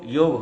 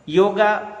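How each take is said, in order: First: The word ends on the consonant 'g'. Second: The word ends with a long 'aa' vowel. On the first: The speaker calls it right. "योग योग होता है" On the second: The speaker calls it wrong. "योगा उच्चारण सही नहीं है"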